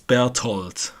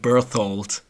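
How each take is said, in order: First: It has a plain t, without th. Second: It has an English th sound. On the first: "not with the th. I'll say it's Berthold" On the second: "in English I would call him Berthold"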